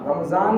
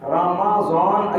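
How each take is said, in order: First: It has the everyday Urdu z sound. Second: It has the Arabic sound heard in Quran recitation. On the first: The speaker calls it wrong. "रमज़ान रमज़ान रमज़ान रमज़ान नहीं" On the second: The speaker calls it right. "ऐसा बोलना है। कुरान कहता है शहरु रमज़ान"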